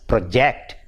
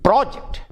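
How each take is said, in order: First: Pro-JECT, weight on JECT; second-syllable stress. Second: PRO-ject, high on PRO; first-syllable stress. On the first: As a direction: verb "project" with a light first syllable. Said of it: "the stress shifts from the first syllable to the second". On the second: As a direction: noun "project" with the first syllable punched. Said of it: "the stress is on the first syllable". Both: Shown as a demonstration.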